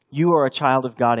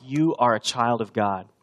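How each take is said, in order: First: Put-on "You are a child of God" said again noticeably louder, hammering it home; emphatic repeat. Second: Said in the usual way. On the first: Shown as a demonstration.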